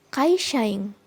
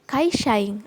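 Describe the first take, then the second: Both takes have the same delivery.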